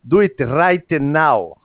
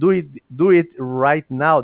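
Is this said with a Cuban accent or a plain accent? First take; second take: Cuban; plain. First: It is said in a strong Cuban accent. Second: It is said in a plain, standard accent. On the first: "they say" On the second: "instead of saying"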